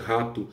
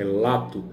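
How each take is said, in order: First: The word begins with an R sound. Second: The word begins with an L sound. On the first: It is the standard form of the word. "no lugar de rato" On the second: It imitates a character's childlike speech. "Cebolinha trocando o R pelo L"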